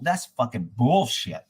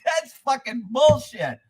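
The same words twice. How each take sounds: First: Low, drawn-out grumble; disgusted, deflated. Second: High, drawn-out protest; indignant outburst. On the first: Caller giving in to the deputy's answer, disgusted and deflated. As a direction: drop the pitch and stretch it out. Retold resigned reply to deputy. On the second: Caller objecting to the deputy's answer, indignant. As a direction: stretch it out in pitched-up outrage. Retold outraged reply to deputy. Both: Retold or imitated.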